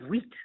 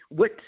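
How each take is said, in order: First: The vowel is a long 'ee' sound. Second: The vowel is a short 'i' sound. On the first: "sometimes that slips to he's got a lot of wheat" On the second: "just trying to think of an I sound, like um, wit"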